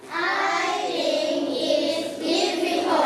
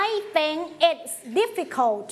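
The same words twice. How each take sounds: First: Sing-song chant. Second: I think it's difficult said slowly and clearly; slow it down for the class to echo; slow choral model. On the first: Real, not acted. Class chants sentence together. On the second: Shown as a demonstration. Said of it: "say it together". (ครูอ่าน I think it's difficult ช้าๆ ให้นักเรียนพูดตาม)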